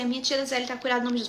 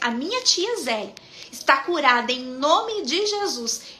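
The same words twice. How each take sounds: First: It is said flatly, without feeling. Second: It is said with strong, heartfelt conviction. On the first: The speaker does not truly believe the words. The speaker calls it wrong. "Não fala assim" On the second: The speaker truly believes the words. The speaker calls it right. "Fala sentindo o que você está falando. ... Fala assim"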